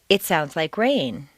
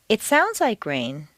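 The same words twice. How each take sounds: First: It sounds like a plain fact, stress on rain. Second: It sounds like a doubtful opinion, implying otherwise.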